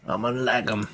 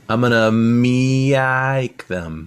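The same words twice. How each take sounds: First: Said in the usual way. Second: Very slow, stretched "me-ike" like a meow; cat pun voice. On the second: Pretend. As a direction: draw "me-ike" out into a cat's mew, louder. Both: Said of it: "Level of puns".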